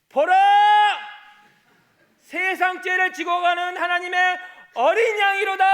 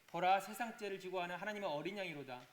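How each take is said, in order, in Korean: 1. 긴장된 목소리로 크게 외칩니다. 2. 무리하지 않은 보통 목소리로 말합니다. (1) "이렇게는 할 수 없는 거 아니에요" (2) "다시 한번 할게요"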